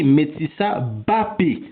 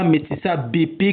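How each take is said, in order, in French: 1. Un 'a' plein suit le son b. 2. Aucune voyelle ne sépare le b du p. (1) "je dis Metsissa Bapé" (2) "et non pas Metsissa B P comme vous avez l'habitude de l'entendre"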